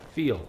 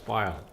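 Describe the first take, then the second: First: The vowel sounds like the one in 'feel'. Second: The vowel sounds like the one in 'file'.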